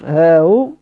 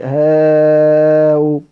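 First: The vowel is held short. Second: The vowel is drawn out long. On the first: "والتسهيل مع الكسر" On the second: "والتسهيل مع المد"

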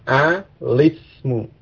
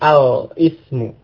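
First: It flows into 'lismu' without a glottal break. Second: It has a glottal break before 'ismu'. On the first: The speaker calls it right. "hamzah wasal pada ismun itu tidak diucapkan, sehingga membacanya alismu" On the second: The speaker calls it wrong. "bukan alismu"

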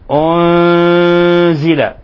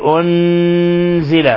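First: The n sound is hidden nasally without doubling. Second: The n sound is doubled and held firmly. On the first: The speaker calls it right. "ولاحظوا الإخفاء وأنه لا تشديد فيه" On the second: The speaker calls it wrong. "لا نقول أنزل"

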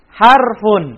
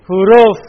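First: The word ends with an -un sound. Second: The word ends without an -un sound. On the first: This is the standard Arabic reading. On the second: This is the classroom teaching form.

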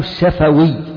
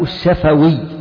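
First: The f is followed by a short a vowel. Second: The f is followed by a short a vowel.

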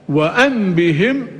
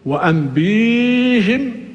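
First: The b is followed by a short i. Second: The b is followed by a long ee. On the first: "بعدم مد الباء" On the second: "بمد الباء"

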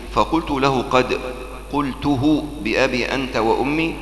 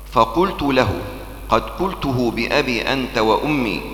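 Both takes have the same delivery.

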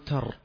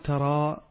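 First: The word ends in a consonant with no vowel. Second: The word ends in a long a vowel. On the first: "نقول تر هكذا لو وقفنا" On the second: "لا نقول ترى بالألف"

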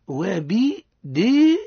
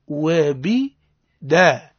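First: The vowel after d leans toward i. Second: The vowel after d is a clear open a. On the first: The speaker calls it wrong. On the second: The speaker calls it right.

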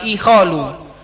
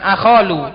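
First: The word begins with an i vowel. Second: The word begins with an a vowel. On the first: "pakai hamzah di kasroh" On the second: "bukan akholu"

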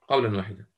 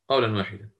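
No difference in how they are said.

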